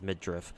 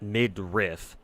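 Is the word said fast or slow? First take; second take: fast; slow. First: The word is said quickly and reduced. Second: The word is said slowly and carefully. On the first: "when you say it fa fast, it comes out as midriff" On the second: "When you say it slowly, it's supposed to be pronounced midriff"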